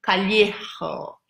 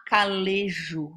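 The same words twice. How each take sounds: First: Callejo with a Spanish lh sound and a throaty j; slow, careful Callejo, ll as lh and j as a rasped h; corrected pronunciation. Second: Calejo said the Portuguese way, with a plain l and a soft j; first reading of the name. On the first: Repeating the viewer's corrected surname, careful Spanish way. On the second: Reading a viewer's surname aloud the first time, Portuguese way. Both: Shown as a demonstration. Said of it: "mas se pronuncia Callejo".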